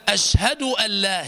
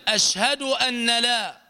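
First: أن لا said as allaa, no n; merged noon. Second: أن لا said as anna laa; unmerged noon. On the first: Teacher models the assimilation, n merged into l. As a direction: melt the n of أن into the لا. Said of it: "هي مدغمة". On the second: Teacher warns students against this reading, n pronounced separately. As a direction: sound the n of أن fully before لا. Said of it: "لا تقل". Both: Shown as a demonstration.

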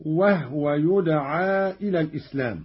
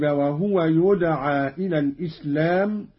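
First: "وهو" as "wah-wa", h without vowel; silent-vowel ha. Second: Said in the usual way. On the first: Shown as a demonstration. Teacher demonstrating Qalun, "وهو" said wah-wa. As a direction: close "وهو" on the h before wa. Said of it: "بإسكان الهاء، هكذا". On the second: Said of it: "قرأ قالون بإسكان الهاء".

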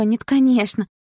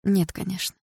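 First: High, urgent denial; worried girlfriend's protest; anxious denial. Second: Understated dismissive reply; dismissive denial. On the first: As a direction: deny it hurriedly in a high voice. Girlfriend anxiously denies wanting breakup. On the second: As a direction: brush the question off without force. Boyfriend denies, after a grimace. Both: Acted.

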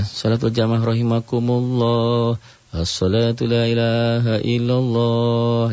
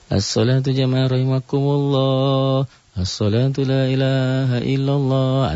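First: Slow sung call; gentle prayer call. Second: Slow, melodious chanted call; slow sung call to prayer; pleasant prayer call. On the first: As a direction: chant it calmly and politely. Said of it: "yang pelan, yang sopan". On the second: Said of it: "dengan suara yang enak aja". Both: Shown as a demonstration.

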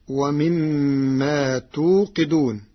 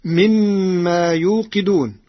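First: توقدون with opening ta, slow; slow recitation, توقدون as tuqiduna; Warsh reading. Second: يوقدون with opening ya; Hafs reading. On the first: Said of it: "بالتاء بدل الياء". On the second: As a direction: recite يوقدون as yuqiduna, firmly. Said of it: "قرأ ورش كلمة يوقدون". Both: Shown as a demonstration.

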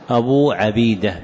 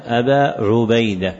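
First: عبيدة as ʕabīda, short a then long ee; fatha on the ayn. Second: عبيدة as ʕubayda, u after the ayn; damma on the ayn. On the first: Teacher showing the reading no narrator bears, عبيدة with fatha, "Abeeda". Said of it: "بفتحها". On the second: Teacher showing students how the kunya is read, عبيدة with damma, "Ubayda". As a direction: say عبيدة with a short u first, "Ubayda". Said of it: "بضم العين". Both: Shown as a demonstration.

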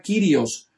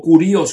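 First: Kyrios said with an ee sound, KEE-ree-os; Greek pronunciation. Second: Kurios said with an oo sound, KOO-ree-os; other pronunciation. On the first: Teacher shows one way to say the Greek Kyrios. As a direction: say Kyrios the first way, stress on the first syllable. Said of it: "la pronunciación puede variar". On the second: Teacher gives the second way others say Kurios. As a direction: give Kurios as other people say it, stress on the first syllable. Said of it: "como dicen otros". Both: Shown as a demonstration.

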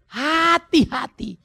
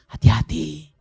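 First: "Hati-hati" stretched slow and high, falling at the end; slow drawn-out warning. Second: Said in the usual way. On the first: Acted. Pastor warns twice, second drawn out.

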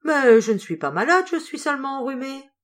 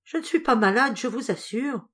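First: Louder, higher indignant protest. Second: High, pressing, a touch of worry; anxious insistence. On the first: Sick seamstress to her employer, loud protest. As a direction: brush off the worry, loudly. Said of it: "Sandrine se récria". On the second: Sandrine to Madame d'Alignac, anxious repeat. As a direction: insist again, uneasy underneath. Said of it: "comme une inquiétude quand elle répéta". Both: A narrator's reading.

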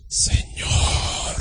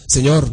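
First: Long, soft whispered invocation; affected praying voice. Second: Said in the usual way. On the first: Retold or imitated. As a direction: exaggerate a hushed, drawn-out plea to God. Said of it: "no, no, no, te decía". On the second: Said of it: "no te decía".

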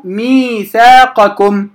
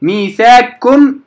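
First: ميثاقكم as miithaaqakum; unmerged qaf. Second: ميثاقكم as miithaakkum, with doubled k; long aa straight into kk in ميثاقكم; wrong merged reading. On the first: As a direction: pronounce ق with its short a before كم in ميثاقكم. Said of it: "إنما أقرأ ميثاقكم". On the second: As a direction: swallow ق into ك in ميثاقكم. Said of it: "ليس صحيحا". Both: Shown as a demonstration.

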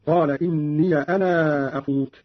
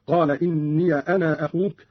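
First: Slow, "أنا" with drawn-out final aa; open ya, long madd. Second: "إني" as inniya, "أنا" with a short long-a; open ya, short madd. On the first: Teacher showing Qalun's madd, "أنا" held long. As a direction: stretch the end of "أنا" before "أخوك". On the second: Teacher showing Qalun's qasr, "أنا" kept shorter. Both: Shown as a demonstration. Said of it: "المد والقصر هكذا".

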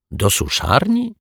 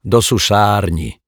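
First: Slow, high questioning lift; puzzled echo question. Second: Slowly explained, closing downward; explanatory statement. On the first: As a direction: DO SUSZARNI high, rising at the end. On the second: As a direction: DO SUSZARNI slow, with a falling end. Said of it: "wyjaśnił pan Mietek". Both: A narrator's reading.

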